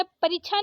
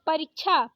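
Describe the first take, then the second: First: परीक्षा said as parichha; wrong छ for क्ष. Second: परीक्षा with k before chha; correct क्ष. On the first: Teacher showing the mistake, परीक्षा as parichha. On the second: Teacher correcting it, परीक्षा as parikchha. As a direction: sound the k in परीक्षा. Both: Shown as a demonstration. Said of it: "परीक्षा नहीं परीक्षा".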